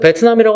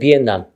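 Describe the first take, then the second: First: It is said with a t sound: Bet-nam. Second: It is said with an n sound: Bien-nam. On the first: This is a Japanese-style English pronunciation. The speaker calls it wrong. "베트남 가서 베트남이라고 하면 못 알아들어요" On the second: This is how it is said locally. The speaker calls it right. "비엔남이에요"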